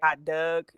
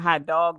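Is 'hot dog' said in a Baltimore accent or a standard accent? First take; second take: Baltimore; standard. First: It is said in a Baltimore accent. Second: It is said in a standard American accent. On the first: "they say hot dog" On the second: "it's not hot dog"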